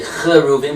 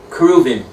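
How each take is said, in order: First: The word begins with a rough ch sound. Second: The word begins with a hard k sound. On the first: The speaker calls it wrong. "we don't say cheruvim" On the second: The speaker calls it right. "we say kruvim"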